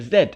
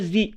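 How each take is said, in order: First: The letter is pronounced 'zed', ending in a d. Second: The letter is pronounced 'zee', ending in a vowel. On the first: This is the British way of saying it. "La prononciation britannique est Z" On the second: This is the American way of saying it. "la prononciation américaine est Z"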